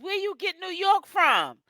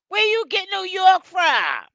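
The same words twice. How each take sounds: First: Said in the usual way. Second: Higher and louder, same question shouted back; exasperated shout. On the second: Real, not acted. Streamer shouts the question again at a viewer, exasperated. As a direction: really demand an answer this time.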